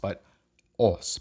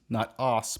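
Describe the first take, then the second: First: The vowel is a lip-rounded long 'ah'. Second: The vowel is not a lip-rounded long 'ah'. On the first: The speaker calls it right. "Basically just say ah, but round your lip" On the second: The speaker calls it wrong.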